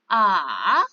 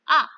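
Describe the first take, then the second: First: The pitch dips low, then rises again. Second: The pitch falls sharply from high to low. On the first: "Nada tiga turun, lalu naik" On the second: "Nada empat turun"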